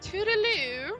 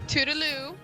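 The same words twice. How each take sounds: First: It is said in a squeaky, strained voice. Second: It is said in a normal voice.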